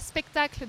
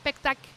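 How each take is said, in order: First: The word is said with all its sounds. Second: The word is said with some sounds dropped. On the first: This is the normal adult form. The speaker calls it right. "au lieu de dire" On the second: A child with a phonological difficulty says it. The speaker calls it wrong. "des enfants qui vont simplifier les mots"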